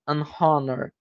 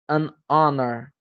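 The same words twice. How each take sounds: First: The H at the start is sounded. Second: The H at the start is silent. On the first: The speaker calls it wrong. "nenhuma não é" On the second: The speaker calls it right. "não tem o som de H"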